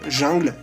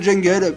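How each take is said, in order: First: The word is pronounced the French way. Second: The word is pronounced the English way. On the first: "en français ça revient à dire jungle" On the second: "prononcé à l'anglaise"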